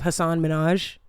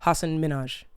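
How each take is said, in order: First: Each name is stressed on its last syllable. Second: Each name is stressed on its first syllable. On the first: The speaker calls it wrong. "instead of" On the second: The speaker calls it right. "the emphasis goes on the first syllable of each name"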